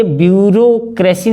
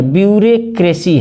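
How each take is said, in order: First: ब्यूरोक्रेसी with a clear "ro" in the middle; usual "o" pronunciation. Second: ब्यूरोक्रेसी said as "byu-re-kresi"; ब्यूरोक्रेसी with "re" before "kresi"; spelling pronunciation. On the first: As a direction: say ब्यूरोक्रेसी as "byu-ro-kresi". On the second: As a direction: swap the "ro" of ब्यूरोक्रेसी for "re". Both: Shown as a demonstration. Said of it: "ये ब्यूरोक्रेसी नहीं है".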